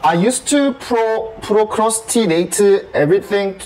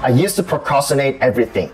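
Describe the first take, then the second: First: It is read haltingly, with broken restarts. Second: It is read smoothly, without broken restarts. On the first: The speaker calls it wrong. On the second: The speaker calls it right.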